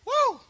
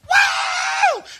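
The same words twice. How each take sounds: First: The shout is fairly restrained. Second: The shout is at full, ecstatic intensity.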